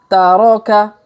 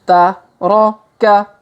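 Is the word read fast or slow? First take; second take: fast; slow. First: The syllables are read quickly, run together. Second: The syllables are read slowly, one by one. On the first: "Kalau dipercepat" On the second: "kita baca pelan-pelan"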